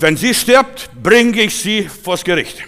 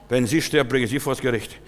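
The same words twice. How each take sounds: First: Loud, high, drawn-out threat; angry threat. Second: Said in the usual way. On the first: Retold or imitated. Husband threatens the pastor with court, angry threat. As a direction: imitate a furious caller, spacing the words out slowly. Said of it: "ganz entsetzt und böse".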